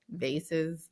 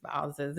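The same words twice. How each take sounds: First: "vases" with a long a, soft s, said softer; vases as VAY-siz. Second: "vases" with an ah vowel and z sounds; vases as VAH-ziz. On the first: Host resuming her story after the debate, "vases" as VAY-siz. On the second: Host giving both versions in her story, "vases" as VAH-ziz. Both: Shown as a demonstration. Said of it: "this is not a grammar lesson".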